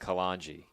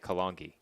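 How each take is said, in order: First: The G is soft, like a J. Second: The G is hard, like in go. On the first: The speaker calls it wrong. "the way we've been saying it, it would be with a J" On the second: The speaker calls it right. "I think it's a hard G"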